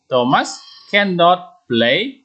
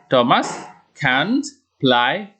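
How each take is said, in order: First: The negative is said in full as cannot. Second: The negative is contracted to one syllable, can't. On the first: "Kalau tidak disingkat, nanti bacaannya" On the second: "tetapi disingkat dengan tanda koma di atas tambah T. Bapak baca"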